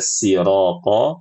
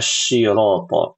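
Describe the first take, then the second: First: The word begins with a plain 's' sound. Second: The word begins with a 'sh' sound. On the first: The speaker calls it right. "Lebih baik jatuh kepada siroto" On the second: The speaker calls it wrong. "Hindari baca syiroto. Ini salah salah fatal"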